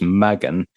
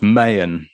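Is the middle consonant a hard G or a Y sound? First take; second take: hard G; Y sound. First: The middle consonant is a hard G. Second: The middle consonant is a Y sound. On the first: The speaker calls it wrong. "I was pronouncing it as Magen, I was mispronouncing it" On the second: The speaker calls it right. "the G is silent there, or it's a Y sound"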